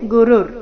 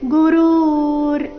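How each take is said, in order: First: The second vowel is short. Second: The second vowel is long. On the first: The speaker calls it right. "ಗು ಮತ್ತೆ ರು ಎರಡು ಹ್ರಸ್ವ" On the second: The speaker calls it wrong. "ಈ ರೀತಿ ಇಲ್ಲ"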